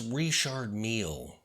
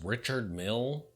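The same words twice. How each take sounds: First: The name is said with French-style sounds. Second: The name is said with plain English sounds. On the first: This is the refined, proper way to say it. The speaker calls it right. "be sure to pronounce it correctly" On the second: This is the unsophisticated way to say it. The speaker calls it wrong. "is so pedestrian"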